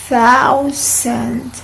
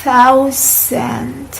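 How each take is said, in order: The two takes are said the same way.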